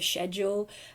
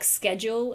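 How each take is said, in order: First: It is said with a non-American pronunciation. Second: It is said with an American pronunciation. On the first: "instead of" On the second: "There's some things in American that are easier to say"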